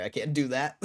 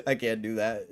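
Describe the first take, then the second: First: Said in the usual way. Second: Laughing. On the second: Real, not acted.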